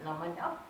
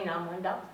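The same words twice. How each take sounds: First: The phrase is squeezed into one quick word. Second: The phrase is squeezed into one quick word.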